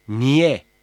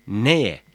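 First: "niye" with i before the y; narrowed vowel. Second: "neye" with e before the y; unnarrowed E vowel. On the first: ("niye", daralmış i ile) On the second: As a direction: keep the e open in "neye". ("neye", açık e ile) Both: Shown as a demonstration. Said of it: "Y harfinin daraltıcı etkisi".

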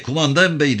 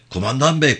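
First: Second call, pitched even higher; calling out louder. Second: First call, higher and pleading. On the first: Yavan calling again to the leaving sergeant, higher still. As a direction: push the call further. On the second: Yavan calling after the squad, first higher call. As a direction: call after the leaving sergeant. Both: A narrator's reading. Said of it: "diye bağırdı".

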